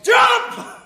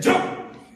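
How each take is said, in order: First: It is shouted at full volume. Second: It is said at normal volume.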